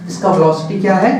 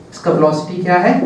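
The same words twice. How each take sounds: The two takes are said the same way.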